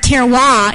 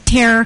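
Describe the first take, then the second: First: It is said with a French pronunciation. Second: It is said like the English word terrier. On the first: The speaker calls it right. "terroir is the proper French pronunciation" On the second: The speaker calls it wrong. "if you're from the product of the public school system, you might say Terrier"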